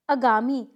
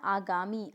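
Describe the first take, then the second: First: आगामी louder, with short first a, "agaami"; incorrect pronunciation. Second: आगामी softer, with long first "aa"; correct pronunciation. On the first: Teacher showing a mistake, आगामी with short initial a. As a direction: clip the first vowel of आगामी to "uh". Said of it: "कुछ भी नहीं होता है". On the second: Teacher giving the answer, आगामी with long initial aa. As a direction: say आगामी as aa-gaa-mee. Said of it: "तो क्या होता है?". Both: Shown as a demonstration.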